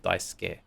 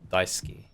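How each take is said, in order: First: The vowel after the s is nearly silent. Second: The vowel after the s is clearly pronounced. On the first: The speaker calls it right. "The U can be kind of silent" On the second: The speaker calls it wrong. "I was kind of pronouncing it not quite right"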